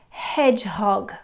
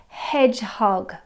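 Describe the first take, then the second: No difference in how they are said.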